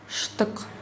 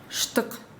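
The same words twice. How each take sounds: No difference in how they are said.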